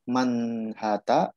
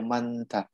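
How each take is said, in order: First: An h sound is heard in the middle. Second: No h sound is heard in the middle. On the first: The speaker calls it wrong. "Dibacanya yang benar manhata atau manta?" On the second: The speaker calls it right. "haknya ini gak dibaca"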